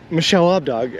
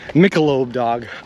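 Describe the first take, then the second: First: It is split as Michelle plus Lobdog. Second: It is split as Michelob plus dog. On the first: The speaker calls it wrong. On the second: The speaker calls it right.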